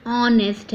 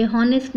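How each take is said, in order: First: "ऑनेस्ट" starting straight on the O; silent H. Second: "हॉनेस्ट" starting on a clear H; H wrongly sounded. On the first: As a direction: begin "ऑनेस्ट" with the vowel, no H. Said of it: "ओ से sound लेना है". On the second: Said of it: "ये हॉनेस्ट नहीं है". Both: Shown as a demonstration.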